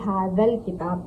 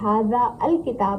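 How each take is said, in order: First: The article merges into the word before, 'haadhal'. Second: The article 'al' is said as its own syllable. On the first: The speaker calls it right. "बल्कि हाजल किताब कहेंगे" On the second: The speaker calls it wrong. "हम इसे हाजा अल किताब नहीं कहेंगे"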